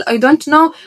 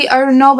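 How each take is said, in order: First: "I don't know" with "don't" fully sounded; full pronunciation. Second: "I don't know" slurred toward "I dunno"; reduced accented pronunciation. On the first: Teacher contrasting with the accented form, "I don't know" said in full. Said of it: "بدل I don't know". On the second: Teacher mocking accent-first learners, "I don't know" reduced to "I dunno". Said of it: "لما انت قلت لي I don't know بدل I don't know". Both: Shown as a demonstration.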